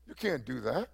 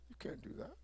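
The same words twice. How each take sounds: First: Said in the usual way. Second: Breathy whisper, almost no voice; preacher whispering a warning to believers. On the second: Acted. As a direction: hush it like a secret warning. Repeated warning, dropped to hush.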